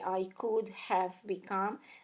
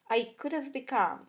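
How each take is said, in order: First: Have is said as a full, separate word. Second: Have is reduced and linked, sounding like of. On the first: The speaker calls it wrong. "we don't say I could have become" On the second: The speaker calls it right. "we will pronounce the, the word have as of"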